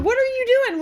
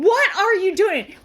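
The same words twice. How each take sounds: First: High-pitched, incredulous question; retold alarmed scolding. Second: Slow, drawn-out, higher-pitched demand; retold exasperated scolding. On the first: Passenger questioning driver in the turn lane, alarmed scolding. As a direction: demand an answer from the driver. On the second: Passenger to driver reversing, drawn-out exasperated scolding. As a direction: lean on each word in disbelief.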